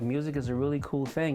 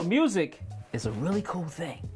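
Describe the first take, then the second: First: The voice is flat and monotone. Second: The voice is lively and varied. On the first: The speaker calls it wrong. "so if I talk to you the whole time like this" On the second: The speaker calls it right. "But if I talk like, hey"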